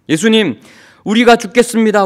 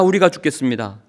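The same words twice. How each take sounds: First: Loud, higher desperate cry for help; panicked cry. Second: Said in the usual way. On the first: Acted. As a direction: cry out as if the boat is sinking. Disciples cry out in storm.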